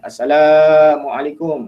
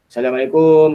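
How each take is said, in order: First: The syllable la is drawn out long. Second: The syllable kum is drawn out long. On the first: The speaker calls it right. "kalau nak panjang boleh panjangkan dekat la-nya" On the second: The speaker calls it wrong. "Jangan panjangkan dekat kum"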